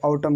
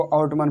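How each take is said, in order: First: आउटम ending on M; corrected, N silent. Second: आउटमन with "man" at the end; wrong reading, N sounded. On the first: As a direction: say आउटम as "au-tam". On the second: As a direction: say आउटमन as spelt. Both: Shown as a demonstration. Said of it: "इसको आउटम कर दो".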